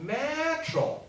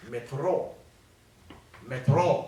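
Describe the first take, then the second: First: "metro"重音放在第一个音节"me"; 像英语一样把"metro"的重音放前面; 英语重音. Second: "metro"重音放在后面的音节，慢慢念; 像俄罗斯人一样把"metro"的重音放后面; 俄语重音. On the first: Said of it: "英语就伫头前啦". (慢慢念"metro"，重读"me") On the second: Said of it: "重音拢较后壁". (慢慢念"metro"，重音落在"tro") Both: Shown as a demonstration.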